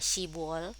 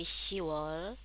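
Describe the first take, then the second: First: A b sound is pronounced before wol. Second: No b sound is heard before wol. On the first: The speaker calls it wrong. "bukan shibwol" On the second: The speaker calls it right. "tapi shiwol"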